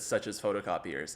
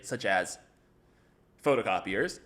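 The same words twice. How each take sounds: First: It runs straight on with no pause after 'such as'. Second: There is a short pause after 'such as'. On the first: The speaker calls it wrong. "I just said such as photocopiers" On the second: The speaker calls it right. "would make you pause after such as"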